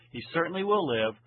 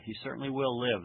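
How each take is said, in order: First: CERTAINLY stressed, higher and quicker; emphatic affirmation. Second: Said in the usual way. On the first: Shown as a demonstration. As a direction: drive home "certainly" with a raised, brisk delivery. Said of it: "emphasizing the truthfulness of what God is saying".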